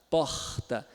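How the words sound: The R is a raspy fricative at the back. "Já o carioca ... fricativo plano velar surdo"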